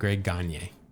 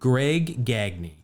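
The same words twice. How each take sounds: First: The surname is said like the reliever's name. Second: The surname is said unlike the reliever's name. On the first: The speaker calls it wrong. "not calling him Greg Gagne, like I always do" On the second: The speaker calls it right. "they pronounce them completely different"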